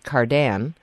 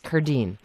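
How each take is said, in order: First: The name is said with a French pronunciation. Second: The name is said with an Italian pronunciation. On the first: This is how it would be said in France. "in France I would be Cardin" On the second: This is how the family actually says it. "it's the Italian pronunciation of a French name"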